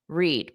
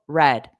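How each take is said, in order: First: The word does not sound like red. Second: The word sounds exactly like red. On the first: It is the present or base form of the verb. "The present and the base verb is read" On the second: It is the past simple form of the verb. "Past simple, red"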